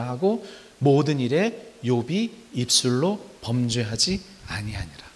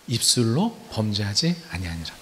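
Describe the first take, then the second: First: Measured scripture reading, fading at the end; slow scripture reading. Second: 입술로 stressed, the rest falling away. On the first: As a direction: read the verse slowly and solemnly. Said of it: "예, 일 장과 이 장에". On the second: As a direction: hit 입술로 as the answer. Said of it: "뭘로 범죄하지 않았어요?". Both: Shown as a demonstration.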